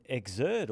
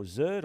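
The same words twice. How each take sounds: First: "Exert" with the opening Ex sounded; "Exert" as two syllables, Ex-ert; two-syllable pronunciation. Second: "Zert" as one syllable starting on Z; "Zert" said short, rhyming with hurt; one-syllable pronunciation. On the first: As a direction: say "Exert" in full, starting on Ex. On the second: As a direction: drop the opening vowel, just "Zert". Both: Shown as a demonstration. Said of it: "however we wanna pronounce it".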